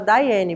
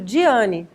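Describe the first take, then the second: First: The name begins with a 'dye' sound. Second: The name begins with a 'dee' sound. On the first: The speaker calls it right. "só que se fala Daiane" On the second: The speaker calls it wrong. "Está escrito Diane"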